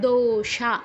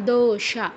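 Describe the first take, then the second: The two takes are said the same way.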